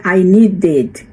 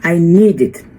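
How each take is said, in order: First: "needed" wrongly said as nee-DED; I nee-DED, ending sounded out as spelt; mispronounced ending. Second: "needed" said as NEED-id, ending light; I NEED-id, stress on the first syllable; correct pronunciation. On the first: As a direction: put a full, heavy "ded" on the end of "needed". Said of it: "Então, não é I needed". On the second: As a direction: say "I needed" with a short final "id". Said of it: "não é I needed". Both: Shown as a demonstration.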